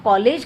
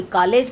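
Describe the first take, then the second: First: कॉलेज said as "kaalij", short i in the second syllable; college as kalij. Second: कॉलेज said as "kaalej", long e in the second syllable; college as kalej. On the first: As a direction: say कॉलेज like kaa-lij. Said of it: "कॉलेज को कोई कॉलेज कहता है". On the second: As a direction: say कॉलेज like kaa-lej. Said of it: "कोई कॉलेज कहता है". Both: Shown as a demonstration.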